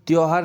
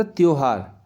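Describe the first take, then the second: First: त्योहार as the misspelt form, middle vowel shifted toward "au"; wrong form demo. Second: त्योहार as "tyo-haar", round o; correct form demo. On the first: Teacher showing the error, त्योहार as tyau-haar. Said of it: "त्योहार नहीं होता". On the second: Teacher correcting children, त्योहार as tyo-haar. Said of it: "त्योहार होता है". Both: Shown as a demonstration.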